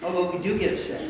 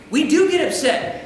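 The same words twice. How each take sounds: First: Soft, low aside; low and understated, under the breath; subdued admission. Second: Higher, firmer restatement of "do get upset"; emphatic admission. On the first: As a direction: drop to a quiet, rueful confession. First take, an aside before repeating. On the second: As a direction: land "do" high and firm. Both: Shown as a demonstration.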